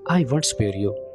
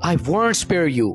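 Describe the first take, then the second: First: It is said in a calm, unemotional tone. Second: It is said in an angry, intense tone. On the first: The speaker calls it wrong. "आपने ऐसे नहीं बोलना, ... मजा नहीं आएगा" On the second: The speaker calls it right. "आप ऐसे बोलेंगे, ... आप गुस्सा कर रहे हैं"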